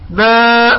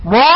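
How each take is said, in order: First: "ما" with a thin, front "maa"; correct light alef. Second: "ما" darkened toward "mo"; wrongly heavy alef. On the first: Teacher corrects the mistake, thin light "ما". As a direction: keep the vowel of "ما" light, almost "mae". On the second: Teacher shows the incorrect sound, heavy, dark "ما". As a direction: thicken the vowel of "ما" into a rounded "maw". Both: Shown as a demonstration. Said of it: "هذا غير صحيح".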